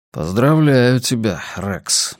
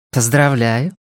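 First: Slow self-congratulation, dropping on the name; Rex to himself. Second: Lightly voiced woman, rising at the end; woman at bar. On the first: Rex toasting himself in the bar mirror, slow and wry. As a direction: congratulate yourself slowly, lightly voiced as Rex. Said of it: "сказал он". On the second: Woman at the bar congratulating a stranger, lightly voiced with rising tune. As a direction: congratulate him with a questioning lift, lightly in character. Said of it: "сказала какая-то женщина". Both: A narrator's reading.

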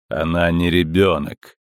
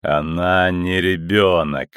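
First: Cold metallic voice. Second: Low, slow and ominous; slow cold metallic voice. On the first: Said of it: "металлический голос". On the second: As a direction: repeat it slowly and coldly. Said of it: "повторил голос". (медленный холодный голос) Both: Acted.

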